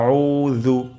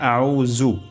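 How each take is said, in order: First: The middle consonant is made with tongue at teeth. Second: The middle consonant is a plain z sound. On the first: The speaker calls it right. "উচ্চারণটি হবে আউ জু" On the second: The speaker calls it wrong. "এটি ভুল"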